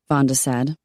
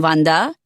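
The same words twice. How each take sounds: First: Said in the usual way. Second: Put-on Wanda said with a French accent, nasal a, V for W, rising. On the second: Simone names Wanda, French accent.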